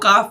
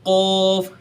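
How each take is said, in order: First: The word is pronounced thin and light. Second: The word is pronounced thick and heavy. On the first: The speaker calls it wrong. "उसको काफ पढ़ेंगे तो ये गलत हो जाएगा" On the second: The speaker calls it right. "उसको हमेशा पूरा ऐसा मोटा पढ़ना चाहिए"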